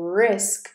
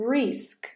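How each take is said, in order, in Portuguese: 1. A vogal soa próxima de um som 'eh'. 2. A vogal é um som 'ee' tenso. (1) "é risk. Como se fosse o som do E do você em português" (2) "Não é risk"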